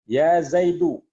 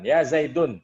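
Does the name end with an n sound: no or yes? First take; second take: no; yes. First: The name ends on a vowel without n. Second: The name ends with an n sound. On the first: The speaker calls it right. "Dibacanya dhammah tanpa tanwin" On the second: The speaker calls it wrong.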